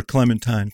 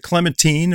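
First: Clementine said as "clemen-TYNE"; CLEMENTINE ending in "tine". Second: Put-on Clementine said as "clemen-TEEN"; CLEMENTINE ending in "teen". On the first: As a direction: rhyme the end of Clementine with "nine". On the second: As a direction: end Clementine with a long ee, like "teen". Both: Shown as a demonstration. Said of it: "is it Clementine or Clementine?".

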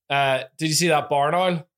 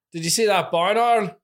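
First: Northern Irish "barn owl" said properly; Northern Irish retake, owl as oil; Northern Irish accent. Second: Northern Irish "barn owl" with oil vowel; Northern Irish accent, owl as oil. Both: Shown as a demonstration. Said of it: "I said barn wrong".

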